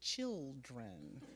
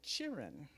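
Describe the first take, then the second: First: The word has a standard, careful pronunciation. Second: The word has a rural, country pronunciation. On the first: This is how one is supposed to say it. The speaker calls it right. "you're supposed to say children" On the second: This is how people in the country say it. The speaker calls it wrong. "Sometimes down the country, people say children"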